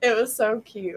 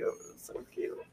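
First: Said in the usual way. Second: The same words repeated in a soft whisper, no voice; whispered gush. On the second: Real, not acted. Gushing to viewers about her son, whispered repeat. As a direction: breathe it out like you're melting.

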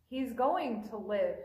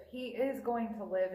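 First: He's "going" to live, leaning on going; calm promise with weight on "going"; stress on going. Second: "is" spelled out and punched, not contracted; firm insistence landing on "is"; stress on IS. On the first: Acted. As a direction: press the word "going", the rest level. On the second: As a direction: hit "is" hard: he IS going to live. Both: Jesus repeats promise for emphasis.

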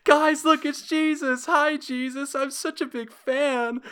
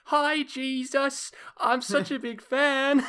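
First: Put-on high, loud little-kid voice calling out; excited child spotting a hero; squeaky child shouting to friends; kid meme voice. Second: Put-on high, slow little-kid voice; squeaky child gushing at a hero; high child fan voice, drawn out; kid meme voice. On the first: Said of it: "I don't know why I did that voice". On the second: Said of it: "Lucas saying".

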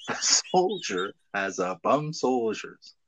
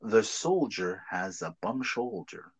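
First: Slow take where "shoulder" slips into "soldiers"; slipped attempt. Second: Slow, quiet, careful "soldier" then "shoulder"; careful correct attempt. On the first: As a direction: let "shoulder" slide into "soldiers". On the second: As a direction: say "soldier" and "shoulder" slowly and cleanly. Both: Shown as a demonstration. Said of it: "can you say".

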